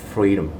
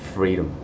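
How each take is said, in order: The two takes are said the same way.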